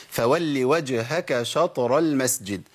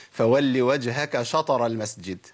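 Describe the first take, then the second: First: Slow recitation, "شطر" with a brief bounce on the ط; correct qalqala recitation. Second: Slow recitation, "شطر" wrongly said "shatara"; qalqala turned to fatha. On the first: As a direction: recite slowly, no full vowel after the ط of "شطر". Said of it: "ما ينفعش إن أنا أوصلها للفتح". (تلاوة متأنية و"شطر" بطاء ساكنة مقلقلة) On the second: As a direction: recite slowly with an "a" after the ط of "شطر". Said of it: "طب لو أنا قلت". (تلاوة و"شطر" بفتح الطاء غلط) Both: Shown as a demonstration.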